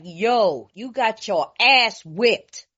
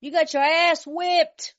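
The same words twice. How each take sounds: First: Yo, you got your ass whipped said slowly, ass drawn out; blunt slow truth. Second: You got your ass whipped slow, higher, ass stressed; blunt repeated truth. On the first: Telling the losing team the hard truth, slow and blunt. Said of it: "And I was like". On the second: Repeating the hard truth to the team, slow. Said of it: "Be lying to them". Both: Retold or imitated.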